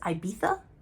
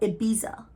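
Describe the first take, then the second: First: The middle consonant is a soft 'th' sound. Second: The middle consonant is a plain 'z' sound. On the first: "with a th" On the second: "or Ibiza"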